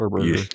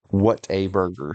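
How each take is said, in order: First: It is said fast, the words run together. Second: It is said slowly, each word kept apart. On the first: The speaker calls it wrong. "I tried to say it too fast and it rolled off as" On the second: The speaker calls it right.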